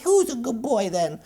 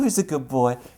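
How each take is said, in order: First: It is said in a squeaky little-girl voice. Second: It is said in a normal adult voice.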